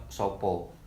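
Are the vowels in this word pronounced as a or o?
o. Both vowels are pronounced as a rounded o. This is how other Javanese speakers say it. "dibandingkan dengan orang Jawa saat mengucapkan kata siapa, maka akan terucap sopo"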